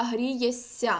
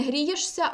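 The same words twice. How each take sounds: First: Грієся with one long hissing сь, no ш; long soft s. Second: Грієшся said as written, with a hushing ш; sh kept before sia. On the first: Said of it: "пишемо «с» подовжене". (грієся з подовженим м'яким с) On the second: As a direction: keep ш distinct in грієшся. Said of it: "Не". (грієшся з виразним ш, як на письмі) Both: Shown as a demonstration.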